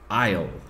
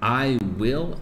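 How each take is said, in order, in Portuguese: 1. As duas palavras se juntam em uma sílaba curta. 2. As duas palavras são ditas completas e separadas.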